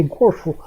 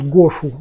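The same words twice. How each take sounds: First: "гошу" offered as a contrast to the Russian spelling; поправка произношения. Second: "гошу" as written in Russian; русская транскрипция. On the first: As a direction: say "гошу" as a quick correction. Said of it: "не гошу, а вот так". («гошу» как поправка к русскому написанию) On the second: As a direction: say "гошу" like a Russian-spelled word. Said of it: "как у нас пишут". («гошу» на русский лад, как пишут) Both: Shown as a demonstration.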